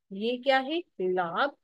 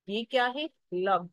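First: लाब with a long aa; long vowel demo. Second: लब with a short a; short vowel demo. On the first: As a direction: stretch the aa in लाब. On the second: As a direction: clip the a in लब short. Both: Shown as a demonstration. Teacher contrasting long and short sounds.

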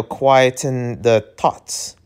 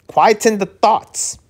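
First: Said in the usual way. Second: "Quieten the thoughts" repeated in a much higher pitch; querying the word. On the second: Real, not acted. Reader doubting that quieten is a word, high and puzzled. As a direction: try out "Quieten" as an odd word, pitched up and drawn out. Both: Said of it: "That's, quieten, I guess that's a word".

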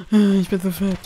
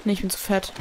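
First: "Ich" hit loud after a gasp, louder dismay. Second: Said in the usual way. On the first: Shown as a demonstration. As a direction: cry out "Ich bin zu fett" in mock despair.

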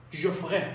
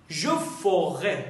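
First: "Je ferai" shortened, middle vowel of "ferai" dropped; contracted pronunciation. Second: "Je ferai" slowly, sounding the middle vowel of "ferai"; full pronunciation. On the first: Teacher models the short form for learners, "ferai" squeezed into "frai". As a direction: run "ferai" together as one syllable, frai. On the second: Teacher models the full form for learners, "ferai" drawn out in two syllables. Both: Shown as a demonstration.

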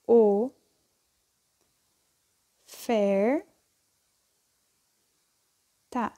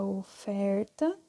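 First: "oferta" as three isolated syllables, o, fer, ta, long pauses between; sílabas separadas. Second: Said in the usual way. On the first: Shown as a demonstration. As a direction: break "oferta" up, waiting after o and after fer. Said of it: "e separo a sílaba". ("oferta" separada em sílabas, com pausas longas: o... fer... ta) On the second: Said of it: "Quando eu escrevo a palavra".

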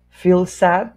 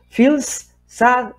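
First: "feel sad" joined with just one S sound; "feel sad" as one unit, no break between words; linked single S. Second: "Feels sad" split, each S sounded on its own; "Feels", a break, then "sad"; two separate S sounds. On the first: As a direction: glide through "feel sad" on one shared S. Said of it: "suena una sola S". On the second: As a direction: overdo both S's in "Feels sad", word by word. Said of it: "hay dos S". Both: Shown as a demonstration.

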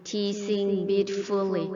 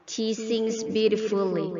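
No difference in how they are said.

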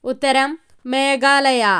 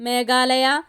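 First: Meghalaya stressed, slow and falling; slow, deliberate falling reveal; slow answer reveal. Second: Meghalaya with a light rise; listing tone. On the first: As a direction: announce the winner answer. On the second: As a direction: read as an option. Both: Shown as a demonstration.

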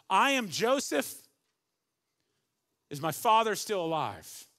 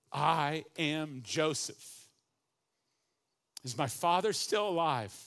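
First: Loud, high, overflowing I am Joseph; bursting out. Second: Slow, weighty reveal with a rise on I; slow solemn reading. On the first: Acted. Joseph revealing himself to his brothers, bursting out loud. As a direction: let it burst from him. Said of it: "the first two things that come out of his mouth". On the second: A narrator's reading. Preacher reading Joseph's words to his brothers, slow and solemn. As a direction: let each word land slowly. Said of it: "And Joseph said to his brothers".

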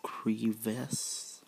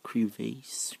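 First: "crevasse" whispered as kri-VASS, short a; trying "crevasse" as kri-VASS, unsure of the right way; crevasse said one way. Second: "crevasse" whispered as kri-VAYSS, long a; trying "crevasse" as kri-VAYSS instead; crevasse said the other way. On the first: Reading the game text aloud, testing "crevasse" as kri-VASS. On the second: Reading the game text aloud, testing "crevasse" as kri-VAYSS. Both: Shown as a demonstration. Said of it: "crevasse or crevasse".

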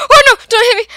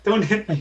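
First: High, loud panicked cry; scared plea. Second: Imitating a frightened plea, high and soft; mock scared. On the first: Real, not acted. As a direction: beg not to be hit, terrified. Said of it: "You look so scared then". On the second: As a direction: tease the scared cry back. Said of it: "You're like".

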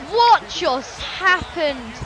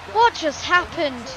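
First: Very slow, disbelieving question; stunned, drawn-out. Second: Said in the usual way. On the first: Acted. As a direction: stretch out each word of "What just happened?".

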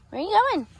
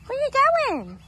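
First: High coaxing pet voice. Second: Even higher, sing-song pet voice. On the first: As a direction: call after the chicken sweetly. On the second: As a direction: coo after it, higher still. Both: Real, not acted. Talking to a chicken.

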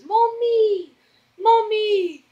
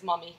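First: Put-on high, drawn-out little-kid call; stretched, high-pitched toddler voice; imitating toddler. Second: Said in the usual way. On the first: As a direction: mimic a toddler calling for mother, way up high. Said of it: "'cause he goes". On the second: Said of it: "I love how he says".

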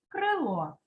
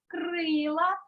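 First: Крило stressed on the final О; stress on last syllable. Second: Крила stressed on И, rising at the end; stress on first syllable. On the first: Teacher reads word pairs, крило stressed on final О. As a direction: put the beat on О in крило. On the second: Teacher reads word pairs, крила stressed on И. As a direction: put the beat on И in крила. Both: Shown as a demonstration. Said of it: "став наголошеним голосний".

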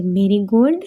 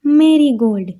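First: marigold read as one option with a rising end; marigold rising as in a list; listing tune. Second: marigold given as the answer with a falling end; marigold falling as the final answer; answer tune. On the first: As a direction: offer marigold as a choice, pitch going up. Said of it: "એમાં ત્રણ ઉચ્ચાર છે". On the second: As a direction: settle on marigold, pitch falling. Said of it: "ગલગોટાનો ઉચ્ચાર શું થાય?". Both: Shown as a demonstration.

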